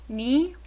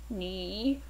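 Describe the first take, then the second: First: The syllable has a rising tone. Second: The syllable falls and then rises. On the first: "the first of the pair actually changes to a second tone" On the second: "when by itself is actually pronounced with a falling and rising tone"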